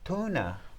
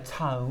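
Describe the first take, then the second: First: The name sounds like the word tuna. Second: The name sounds like the word tone. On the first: The speaker calls it right. "it's actually tuna. Like the fish" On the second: The speaker calls it wrong. "I've always said Tone"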